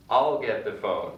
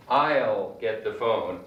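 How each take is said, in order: First: I'll said lazily as ol in I'll get the phone; lazier I'll. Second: I'll said as a short ul; contracted I'll. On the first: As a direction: drop I'll down to a lazy ol. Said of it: "like O L". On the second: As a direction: reduce will to ul in I'll get the phone. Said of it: "it's pronounced ul". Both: Shown as a demonstration.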